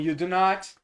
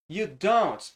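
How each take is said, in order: First: It is said as two separate full words. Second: It is said as one contracted word. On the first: "do not" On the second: "fazendo a abreviação"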